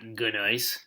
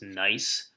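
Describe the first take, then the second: First: The word starts with a G sound before N. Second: The word starts with an N sound, no G. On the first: The speaker calls it wrong. "not gneiss" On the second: The speaker calls it right. "the G is silent. It's pronounced nice"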